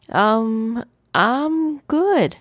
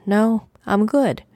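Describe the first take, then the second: First: High brush-off. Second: Said in the usual way. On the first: Acted. Brushing off the worried ancestor. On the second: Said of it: "I repeated".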